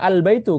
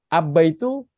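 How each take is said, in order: First: The L is pronounced clearly before the B. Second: The L merges into a doubled B sound. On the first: The speaker calls it right. "ini dibaca jelas al" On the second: The speaker calls it wrong. "Kalau misalkan kita pakai syamsiah abba itu susah"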